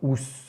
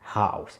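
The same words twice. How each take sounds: First: It sounds like the French word housse. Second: It sounds like the English word house. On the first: The speaker calls it wrong. "C'est pas docteur House de canapé" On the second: The speaker calls it right. "c'est docteur House"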